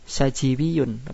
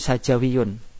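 First: The vowel after the j is 'i'. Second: The vowel after the j is 'a'. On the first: The speaker calls it wrong. "bukan sajiwiyun" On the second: The speaker calls it right. "namun sajawiyun"

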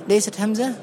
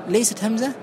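The two takes are said the same way.

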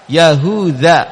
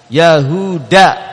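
First: The consonant before the last vowel is 'dh'. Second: The consonant before the last vowel is 'd'. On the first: This is the original form of the name. "pakai zal" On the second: This is the form after Arabization. "dengan dal"

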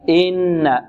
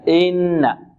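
Both takes have the same delivery.

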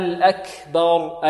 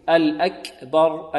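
First: The k is released with an audible puff of breath. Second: The k is released with a slight vowel-like sound. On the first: The speaker calls it right. "فنحتاج إلى أن نجري معها ماذا؟ النفس" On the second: The speaker calls it wrong. "بعض الطلبة يأتون بالصويت"

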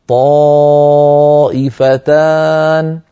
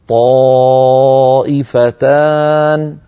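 Both takes have the same delivery.

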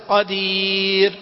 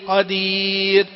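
No difference in how they are said.

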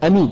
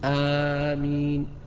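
First: The first vowel is short. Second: The first vowel is long. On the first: The speaker calls it wrong. "أمين بدون مد أيضا هذا انتقدها العلماء" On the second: The speaker calls it right. "يقولها بالمد والتخفيف"

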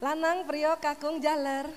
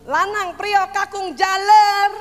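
First: The names are called in a calm, normal voice. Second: The names are called in an angry voice. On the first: This is the first, friendly call. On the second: This is the third call, and the caller is now angry.

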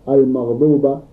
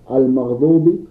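First: The word ends with an a vowel. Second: The word ends with an i vowel. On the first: The speaker calls it wrong. "فيقرأها المغضوب بالفتح" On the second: The speaker calls it right. "وهي بالكسر"

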